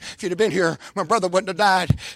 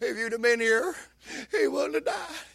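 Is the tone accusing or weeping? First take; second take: accusing; weeping. First: It is said in an accusing tone. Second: It is said in a broken, weeping tone.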